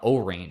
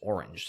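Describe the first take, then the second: First: It is said as 'oh' plus the word range. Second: It is said as the ordinary word orange. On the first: The speaker calls it wrong. "it's not O-range" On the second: The speaker calls it right. "it's orange"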